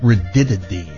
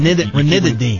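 First: One of the n sounds is left out. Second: Every n sound in the word is pronounced. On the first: The speaker calls it wrong. "No, there's an N" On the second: The speaker calls it right. "Yeah, now you got it"

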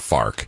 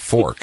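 First: Said in a regional St. Louis accent. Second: Said in a standard American accent. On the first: The speaker calls it wrong. "It's not a fark" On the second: The speaker calls it right. "It's a fork"

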